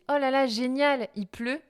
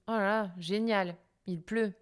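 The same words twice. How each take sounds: First: The voice rises at the end. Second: The voice falls at the end. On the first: It is a genuinely positive exclamation. "ma voix monte à la fin" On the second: It is meant ironically. "ma voix tombe à la fin"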